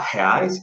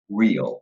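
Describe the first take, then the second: First: The R is pronounced like a Portuguese R. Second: The R is pronounced like an English R. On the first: The speaker calls it wrong. "avoid that really, really common habit of saying the Portuguese R. Remember, it's not" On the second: The speaker calls it right. "it would be"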